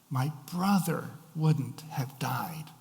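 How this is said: The word brother carries the emphasis. The speaker is grieving over what already happened. "the emphasis is placed on the word brother"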